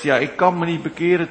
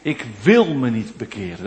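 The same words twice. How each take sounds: First: "kan" pushed forward as the excuse of inability; "ik kan me niet bekeren" with stress on "kan". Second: "ik wil me niet bekeren" with stress on "wil". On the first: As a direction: lean on "kan", the mock plea of "cannot". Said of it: "verschuilt achter uw onmacht". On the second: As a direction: land hard on "wil" to unmask the refusal. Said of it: "wat eigenlijk uw onwil is". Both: Shown as a demonstration.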